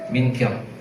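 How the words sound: The name is said as Ming Kiong. This is how the name is said in Singkawang. "Kalau di Singkawang nama saya jadi Ming Kiong"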